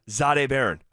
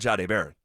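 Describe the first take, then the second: First: The first name begins with a 'zh' sound. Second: The first name begins with a 'j' sound. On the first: This is how the official guide says it. "the pronunciation guide has his first name being said like this: Z H A dash Day" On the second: This is how people have long said it. "for years, this guy's been called"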